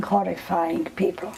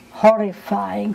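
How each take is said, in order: First: Horrifying people dropped to a soft murmur; hushed horrifying people. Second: Horrifying drawn out slowly, each syllable weighted; slow emphatic horrifying. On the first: Survivor trailing off about the Nazis, voice sinking. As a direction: let horrifying people fall away softly. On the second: Survivor recalling the Arrow Cross, dwelling on Horrifying. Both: Real, not acted.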